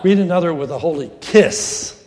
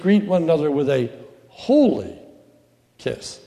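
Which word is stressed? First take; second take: kiss; holy. First: The word 'kiss' carries the stress. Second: The word 'holy' carries the stress. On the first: The kiss itself is the main point. The speaker calls it wrong. "It is not greet another with a holy kiss. And kiss is the operative word" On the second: Holiness is the main point. The speaker calls it right. "Holy is the operative word"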